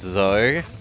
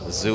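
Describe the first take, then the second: First: The vowel is an 'oh' sound. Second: The vowel is a long 'oo' sound. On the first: The speaker calls it right. "it's Zo" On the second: The speaker calls it wrong. "Zoo is the wrong pronunciation"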